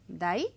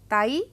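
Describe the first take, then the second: First: The word begins with a voiced d sound. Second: The word begins with a voiceless t sound. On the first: "दाई तो यही है" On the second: "दा की जगह ता आ गया"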